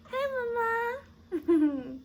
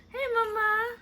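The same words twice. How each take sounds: First: High, very slow cooing with a laugh. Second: High cooing greeting. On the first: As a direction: stretch it out lovingly, laughing. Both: Real, not acted. Cooing at the baby.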